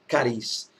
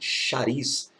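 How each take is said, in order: First: The word begins with a 'k' sound. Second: The word begins with an 'sh' sound. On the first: "Ou cariz, melhor dizendo" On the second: "ou como alguns dizem"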